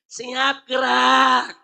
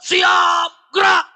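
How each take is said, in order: First: The command is said softly and weakly. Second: The command is shouted loudly and firmly.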